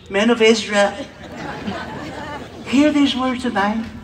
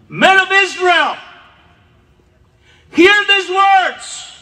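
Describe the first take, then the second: First: It is said softly and calmly. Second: It is said loudly and forcefully.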